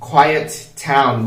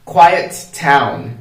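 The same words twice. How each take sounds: Both takes have the same delivery.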